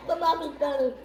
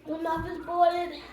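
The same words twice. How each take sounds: First: Louder, mouth on fire; blurting through spicy burn; mouth burning from spicy food. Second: Talking through a burning mouth; gasping words, tongue on fire; mouth burning from spicy food. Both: Real, not acted.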